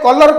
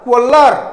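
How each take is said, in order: First: It is said the Indian English way. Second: It is said the American English way. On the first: "आम India रे कलर कहूचे" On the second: "America रे कोलर कोलर कौन कहती"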